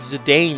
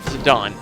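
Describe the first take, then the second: First: Pronounced the way the spelling suggests it. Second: Pronounced the way the game itself says it. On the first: "I just think Zidane is cooler" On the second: "that's how you pronounce it"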